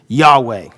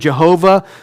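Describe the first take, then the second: First: It begins with a Y sound, two syllables. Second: It begins with a J sound, three syllables. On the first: The speaker calls it right. "we understand that to be pronounced probably like this" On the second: The speaker calls it wrong. "A mispronunciation of that would be like Jehovah"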